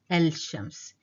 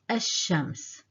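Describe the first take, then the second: First: The l is heard before the sh. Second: The l is dropped and the sh doubled. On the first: The speaker calls it wrong. "it's kind of difficult saying el-shams" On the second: The speaker calls it right. "I didn't pronounce the lam"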